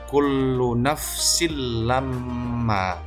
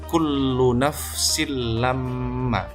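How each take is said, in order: The two takes are said the same way.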